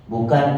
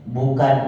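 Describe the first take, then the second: Both takes have the same delivery.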